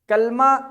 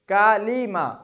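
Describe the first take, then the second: First: No vowel is heard between l and m. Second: An i vowel is heard between l and m. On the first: The speaker calls it wrong. "कलमा दुरुस्त लफ्ज नहीं है" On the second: The speaker calls it right. "लाम के नीचे जेर"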